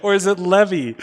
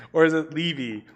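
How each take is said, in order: First: Levy said as "LEH-vee", pitched high; short-E pronunciation. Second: Levy said as "LEE-vee", pitched up; long-E pronunciation. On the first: Streamer asking how a name is pronounced, short-E demo. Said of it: "Now I have more questions". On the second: Streamer asking how a name is pronounced, long-E demo. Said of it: "how that E goes". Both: Shown as a demonstration.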